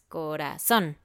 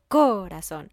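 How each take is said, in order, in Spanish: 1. El acento está en la última sílaba. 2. El acento está en la primera sílaba. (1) "es corazón" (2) "No digo corazón"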